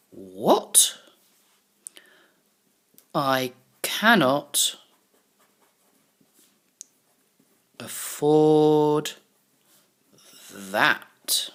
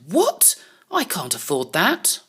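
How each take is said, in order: First: Drawn-out word by word while writing; slow dictation. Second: Shocked. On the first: Shown as a demonstration. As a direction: spell out the line slowly as you write it. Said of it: "this is what he's got to say". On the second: Acted. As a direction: gasp out the What in disbelief. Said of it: "I think he looks a little bit shocked".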